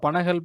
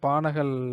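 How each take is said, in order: First: The first vowel is short. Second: The first vowel is long. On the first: This is how people have commonly said it. The speaker calls it wrong. "இப்படின்னு நம்ம சொல்லிட்டோம்" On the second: This is the name's real form. The speaker calls it right. "உண்மையான இது வந்து பானகல் அரசர் தான்"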